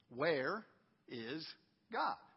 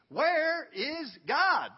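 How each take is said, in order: First: It is asked calmly and softly. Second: It is asked very forcefully and loudly.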